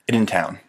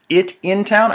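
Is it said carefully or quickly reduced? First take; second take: quickly reduced; carefully. First: The words are run together quickly. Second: The words are said fully and slowly. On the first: The speaker calls it right. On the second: The speaker calls it wrong.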